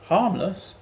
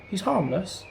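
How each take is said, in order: First: Higher, louder scornful echo; growled scorn. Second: Said in the usual way. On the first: A narrator's reading. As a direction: throw the word back with contempt. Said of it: "growled Cratchit". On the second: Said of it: "pleaded Sam in desperation".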